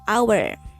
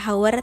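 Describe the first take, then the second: First: The word starts with a vowel, h silent. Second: The word starts with an audible h sound. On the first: The speaker calls it right. "tapi hour" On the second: The speaker calls it wrong. "tidak dibaca hour"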